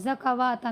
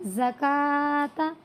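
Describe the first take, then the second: First: It is said with a 'w' sound. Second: It is said without a 'w' sound. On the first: The speaker calls it wrong. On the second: The speaker calls it right.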